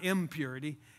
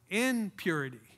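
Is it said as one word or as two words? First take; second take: one word; two words. First: It is said as one word, impurity. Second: It is said as two words, in purity. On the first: Uncleanness. The speaker calls it wrong. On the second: Acting with purity. The speaker calls it right.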